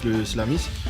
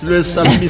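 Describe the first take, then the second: First: The word starts with the sounds 'slam'. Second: The word starts with the sounds 'sal'. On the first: The speaker calls it wrong. "Pas le slam" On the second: The speaker calls it right. "Faut mettre sale"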